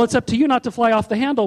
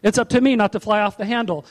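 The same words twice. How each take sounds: First: "you" stressed over the other words. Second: "me" stressed over the other words. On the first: Preacher puts it to the congregation, stress on "you". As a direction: hit the word "you". Turns the point on listener. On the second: Preacher takes it on himself, stress on "me". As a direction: hit the word "me". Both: Real, not acted.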